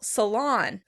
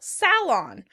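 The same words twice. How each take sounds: First: The stress is on the second syllable. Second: The stress is on the first syllable. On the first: "The Americans would pronounce it on the second syllable" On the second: "The British will pronounce it on the first syllable"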